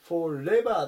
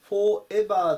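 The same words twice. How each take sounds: First: The r sound runs smoothly into the next vowel. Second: It is said in katakana style, sounds kept apart. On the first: The speaker calls it right. "このR とE の部分がつながるのでforever っていうふうに聞こえます" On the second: The speaker calls it wrong. "よくカタカナでforever っていうふうに言うんですけど"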